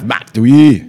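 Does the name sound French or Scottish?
Scottish. The name is said with a Scottish-sounding pronunciation. The speaker calls it right. "Is that better? That is better"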